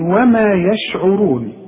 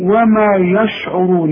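First: The ya and sheen sounds are light and thin. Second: The ya and sheen sounds are heavy and thick. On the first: The speaker calls it right. "الياء في القرآن دائما مرققة" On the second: The speaker calls it wrong. "الياء بتاعت يشعرون ده تطلع منك ... والشين تفخم"

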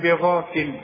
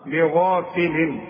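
First: The word ends on a silent l sound. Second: The word ends with a nasal n sound. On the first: The reciter pauses after this word. "اذا وقفت بسكن اقول بغافل" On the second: The reciter continues straight into the next word. "لغافل ده عند الوصل"

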